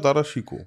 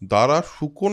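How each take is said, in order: First: The second name is said with an 'i' vowel. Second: The second name is said with a 'u' vowel. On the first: The speaker calls it right. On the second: The speaker calls it wrong. "ভুল বলা হয়।"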